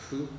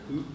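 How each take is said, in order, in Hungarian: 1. A szótag lágy, f-szerű hangon kezdődik. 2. A szótag egyszerű h hangon kezdődik. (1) "hanem hu" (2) "Tehát az nem hu"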